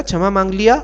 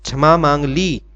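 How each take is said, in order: First: Mock-wrong क्षमा मांग लिया, questioning rise; teacher's incorrect example लिया, pitched up; wrong masculine form. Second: Settled correct क्षमा मांग ली, stressing क्षमा; teacher confirms ली with a falling tune; correct feminine form. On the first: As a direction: say लिया as the odd, wrong form, higher and louder with a rising query. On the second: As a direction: say ली firmly with a falling close. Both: Shown as a demonstration. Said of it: "ऐसा तो नहीं कहते ना".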